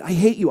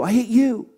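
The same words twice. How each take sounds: First: Louder, mock daughter's shout; angry teen yell. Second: The second one pitched higher and louder, whinier; higher teen shriek. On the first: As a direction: throw it at the mother like a retold teen tantrum. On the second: Retold or imitated. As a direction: escalate into a mock teen shriek. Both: Daughter cussing at her mother.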